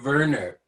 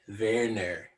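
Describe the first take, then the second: First: The name is said without the South African pronunciation. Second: The name is said with the South African pronunciation. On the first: The speaker calls it wrong. "it's not Werner" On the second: The speaker calls it right. "It's Werner"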